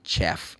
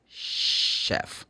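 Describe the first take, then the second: First: The word begins with a ch sound. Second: The word begins with an sh sound. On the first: The speaker calls it wrong. "You don't meet the chef" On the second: The speaker calls it right. "The C H in this case has the sound sh"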